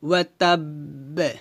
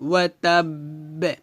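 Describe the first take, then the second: No difference in how they are said.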